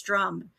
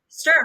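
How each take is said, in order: First: The r comes right after the t. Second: The r comes after the vowel. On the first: The speaker calls it wrong. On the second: The speaker calls it right.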